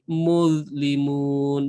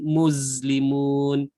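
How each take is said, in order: First: The consonant is a 'th' with tongue between teeth. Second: The consonant is a 'z' with tongue inside mouth. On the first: The speaker calls it right. "kat luar" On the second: The speaker calls it wrong. "bukan kat dalam mulut"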